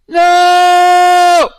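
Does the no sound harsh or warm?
warm. A firm no carrying warmth and love.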